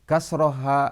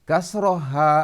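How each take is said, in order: Both takes have the same delivery.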